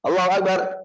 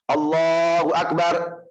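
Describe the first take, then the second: First: It is said quickly and in a rush. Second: It is said slowly and calmly. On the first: The prayer is performed without composure. The speaker calls it wrong. "Itu namanya bukan tumak nina, bukan tenang" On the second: The prayer is performed with composure. The speaker calls it right.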